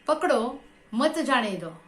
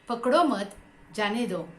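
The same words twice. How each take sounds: First: There is a pause right after 'pakdo'. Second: There is a pause right after 'mat'.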